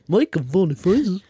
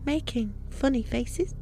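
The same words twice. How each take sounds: First: It is said in a squawky cartoon-character voice. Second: It is said in an eerie small-child voice. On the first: The speaker calls it wrong. "she sounded like Daffy Duck. Or Mickey Mouse" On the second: The speaker calls it right. "like a kid. Make it creepy"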